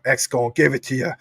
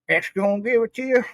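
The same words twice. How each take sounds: First: It is read in the speaker's ordinary accent. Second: It is said in a put-on country accent.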